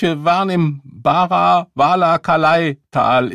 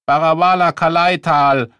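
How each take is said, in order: First: High, loud, slowed-down rant; slow ranting veteran. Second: Loud high shout of the name. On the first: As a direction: drag the memory out. Phrase again in rant. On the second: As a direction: yell it out. First shout of the phrase. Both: Acted.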